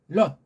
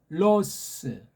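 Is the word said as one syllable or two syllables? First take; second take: one syllable; two syllables. First: It is one syllable ending in a closed consonant. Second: It is two syllables with an added vowel.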